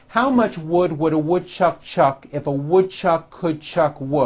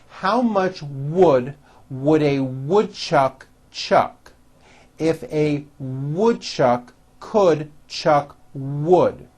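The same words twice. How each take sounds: First: It is said at a faster pace. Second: It is said at a slower, moderate pace.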